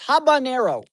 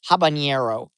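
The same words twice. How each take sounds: First: The middle consonant is a plain 'n' sound. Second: The middle consonant is an 'ny' sound. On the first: The speaker calls it right. "it's just an N" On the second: The speaker calls it wrong. "Where does the "ñ" come from?"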